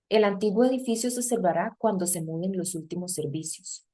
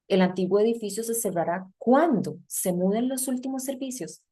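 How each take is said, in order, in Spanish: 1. Tiene entonación de afirmación en todo momento. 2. Tiene entonación de pregunta en la segunda mitad. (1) "Yo no estoy diciendo una pregunta" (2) "La entonación no calza"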